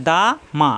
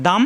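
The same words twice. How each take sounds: First: "দা মা" as two open syllables, pause between; separated syllables. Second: "দাম" as one closed syllable ending on M; joined as one. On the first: Teacher showing letters read apart, separated syllables. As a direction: split "দা" from "মা". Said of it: "আলাদা আলাদা". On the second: Teacher showing two letters read together, joined as one. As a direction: close "দাম" straight onto the M. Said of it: "একাত্তরে উচ্চারণ হবে". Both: Shown as a demonstration.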